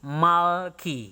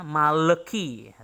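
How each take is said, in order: First: No vowel is sounded between the L and K. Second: A short e vowel is sounded after the L. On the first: The speaker calls it right. "tetapi malki" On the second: The speaker calls it wrong. "jangan sampai membacanya maleki"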